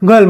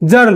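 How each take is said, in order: First: The word begins with a hard g sound. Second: The word begins with a j sound. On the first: "इथं आपण जीचा उच्चार ग केलेला आहे" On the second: "जीचा उच्चार जर गर्ल न करता ज केलं तर काय होईल"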